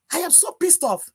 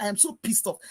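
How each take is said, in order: First: Higher, emphatic pissed off; angry. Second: Said in the usual way. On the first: Real, not acted. Venting to Mister Elvis, angry emphasis. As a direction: land hard on pissed.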